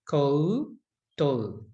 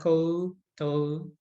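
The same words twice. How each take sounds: First: The vowels are said separately and clearly. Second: The vowels run together in quick speech. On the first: "actually the proper way to say it is koutou" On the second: "But we say it quickly"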